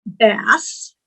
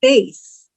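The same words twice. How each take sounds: First: Bass, short a as in cat; bass like the fish. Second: Bass, long a as in base. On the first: Teacher showing the fish word, said "bass" with a short a. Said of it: "It can be pronounced". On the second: Teacher showing the voice word, "bass" rhyming with face. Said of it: "or it can be pronounced bass". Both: Shown as a demonstration.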